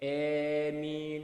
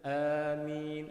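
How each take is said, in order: First: The first vowel is tilted toward 'e'. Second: The first vowel is a plain open 'a'. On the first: "amin macam tu bil imalah" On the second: "membaca amin itu dengan bacaan seperti tadi"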